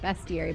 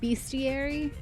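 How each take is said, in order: First: The first syllable sounds like best. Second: The first syllable sounds like beast. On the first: "every time I see it written, I want to pronounce it bestiary, but then I'm like, that's not how that should sound" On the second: "but it's about beasts. So do you say bestiary?"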